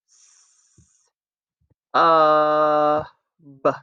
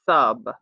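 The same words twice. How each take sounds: First: "S-, uh, b-" as separate sounds, hiss and vowel held long. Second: Said in the usual way. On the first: Shown as a demonstration. Teacher pushing a chip for each sound, sound by sound. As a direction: stretch "S-, uh, b-" with clear gaps between sounds. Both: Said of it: "Let's push the chips".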